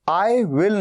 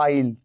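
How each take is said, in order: First: It is said as two full words. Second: It is contracted into one syllable. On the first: "आई विल नहीं कह रहा हूं" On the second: "मैं आइल कह रहा हूं"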